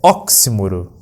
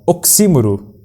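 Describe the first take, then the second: First: The stress is on the second-to-last syllable. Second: The stress is on the third-to-last syllable. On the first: The speaker calls it right. "O correto é oxímoro" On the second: The speaker calls it wrong. "ela não deve ser pronunciada como a proparoxítona oxímoro. É errado"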